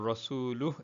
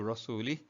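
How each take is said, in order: First: The word ends with a u vowel. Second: The word ends with an i vowel. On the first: His messenger is also free from the polytheists. The speaker calls it right. "Just change the dhamma on the lam to a kasra" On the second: God is free from His messenger. The speaker calls it wrong. "Just change the dhamma on the lam to a kasra"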